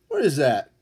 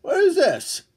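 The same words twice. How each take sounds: First: Lower, comic puzzled voice after the squeak; mock puzzled grumble. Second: Much higher, comic puzzled voice; mock puzzled squeak. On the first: Streamer to chat, eyeing the mail, a low mock-baffled grumble. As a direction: drop it down like a baffled grump. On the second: Streamer to chat, holding up mail, a high mock-baffled squeak.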